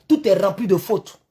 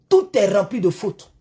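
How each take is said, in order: No difference in how they are said.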